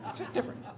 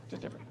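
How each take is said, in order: First: Whispered aside. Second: Whispered echo. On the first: Repeated, unvoiced. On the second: Echoed almost silently. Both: Real, not acted.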